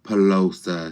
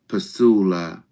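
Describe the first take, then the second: First: The name is pronounced as Pelosa. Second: The name is pronounced as Pasula. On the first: The speaker calls it wrong. "You keep saying Pelosa" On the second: The speaker calls it right. "it's Pasula, not Pelosa"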